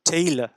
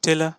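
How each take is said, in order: First: The first vowel glides from e toward i. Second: The first vowel is a single plain e sound. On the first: The speaker calls it right. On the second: The speaker calls it wrong. "টেলা না"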